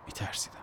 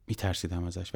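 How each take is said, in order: First: Hushed admission. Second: Said in the usual way. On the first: A narrator's reading. Admits fear alone in truck.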